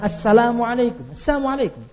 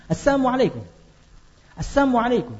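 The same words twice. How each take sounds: First: "Assalamualaikum" with the lam clear; proper greeting. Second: "Assalamualaikum" slurred as asamualaikum, no l; greeting without lam. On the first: Preacher contrasting the correct greeting, clearly. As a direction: say "Assalamualaikum" fully, lam sounded. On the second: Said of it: "Tapi suaranya begini". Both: Shown as a demonstration.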